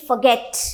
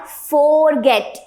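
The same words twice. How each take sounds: First: "forget" with a short "fuh"; correct pronunciation demo. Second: "forget" with a slow, full "for"; mispronunciation demo. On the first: Teacher giving the simple phonetics, correct pronunciation demo. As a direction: reduce the start of "forget" to fuh-get. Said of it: "फ, simple phonetics". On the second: Teacher showing what it is not, mispronunciation demo. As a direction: say "forget" slowly as FOR-get. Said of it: "it is not forget". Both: Shown as a demonstration.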